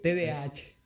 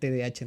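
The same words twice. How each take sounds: First: It is said fully with the final H sounded. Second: It is said quickly with the final H dropped. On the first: The speaker calls it right. "Pero es T D A H" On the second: The speaker calls it wrong. "se comía la H, o simplemente, como lo decía muy rápido"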